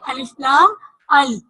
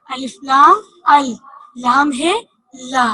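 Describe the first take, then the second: First: Said in the usual way. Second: Each letter drawn out for the class; teacher slowing down the spelling; slow, spelled out. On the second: Shown as a demonstration. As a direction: spell अलिफ लाम अल slowly and a bit louder. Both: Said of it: "लाम को हमने दो दफा पढ़ा".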